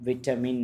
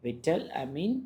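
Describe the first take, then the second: First: Said in the usual way. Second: "vitamin" in two pieces, vital-amin, rising at the end; split into parts. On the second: Shown as a demonstration. Teacher showing the two source words of a blend, split and rising. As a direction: say "vitamin" as vital plus amin, left hanging upward. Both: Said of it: "இதுதான் கேட்டோம்".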